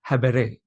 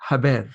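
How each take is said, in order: First: Habere with the final e sounded; full Latin pronunciation. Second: Haber with the final e dropped; shortened Latin pronunciation. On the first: Teacher sounding out a Latin word, habere with the last e voiced. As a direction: say habere in three syllables, ha-be-re. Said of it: "I don't know how it's pronounced fully". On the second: Teacher settling on a cool-sounding Latin word, haber cut to two syllables. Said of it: "It sounds cool, so I'll say haber". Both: Shown as a demonstration.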